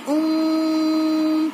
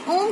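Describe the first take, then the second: First: The vowel is stretched out very long. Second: The word is said short, without stretching. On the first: The speaker calls it right. "मतलब जो खींचते हैं" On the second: The speaker calls it wrong. "खाली ओम कहकर नहीं छोड़ेंगे"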